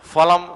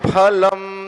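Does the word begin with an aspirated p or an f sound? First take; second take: f; aspirated p. First: It begins with an f sound made with lip and teeth. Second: It begins with a p sound with a breath puff. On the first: The speaker calls it wrong. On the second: The speaker calls it right.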